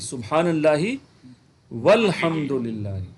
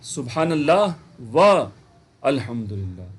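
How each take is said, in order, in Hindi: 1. 'wa' बिना रुके सीधे अगले शब्द में जुड़ जाता है। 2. 'wa' के बाद रुकता है, फिर साफ़ 'al' बोलता है।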